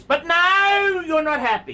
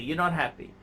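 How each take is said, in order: First: High, loud, fed-up outburst; mocking exasperated shout. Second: Said in the usual way. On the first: Real, not acted. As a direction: burst out at his endless complaining. Scolding the owner.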